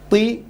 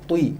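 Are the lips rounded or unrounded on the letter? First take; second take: unrounded; rounded. First: The letter is said without rounding the lips. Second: The letter is said with rounded lips. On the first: The speaker calls it right. "try not to use your lips" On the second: The speaker calls it wrong. "not T"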